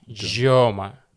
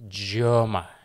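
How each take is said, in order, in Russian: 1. Название произносится по-американски. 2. Название произносится по-американски.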